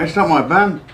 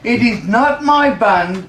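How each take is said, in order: First: It is said at normal conversational speed. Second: It is said very slowly and deliberately.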